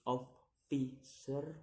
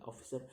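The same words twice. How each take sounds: First: "officer" in three separate beats, rising at the end; syllable by syllable. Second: Said in the usual way. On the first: Shown as a demonstration. Teacher demonstrating syllables, "officer" slowly split. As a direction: break "officer" apart with pauses. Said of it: "three syllables to say". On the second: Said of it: "the ending er".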